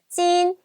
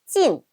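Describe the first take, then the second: First: The syllable has a high level tone. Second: The syllable has a sharp falling tone. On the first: It means to endure or bear. "일성일 때는 견디다, 참다라는 뜻입니다" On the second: It means to prohibit. "사성으로 발음하면은 금지하다는 뜻이었어요"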